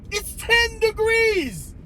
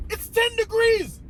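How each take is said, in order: First: "It's ten degrees" very high and slow, TEN hit hard; stress on TEN. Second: "It's ten degrees" high, incredulous, at normal pace; high disbelieving "It's ten degrees". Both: Retold or imitated. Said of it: "I didn't say all that inside".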